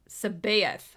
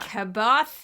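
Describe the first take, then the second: First: The name begins with an S sound. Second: The name begins with a hard K sound. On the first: "I always thought it was like a S sound" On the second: "Some people thought it was a hard C"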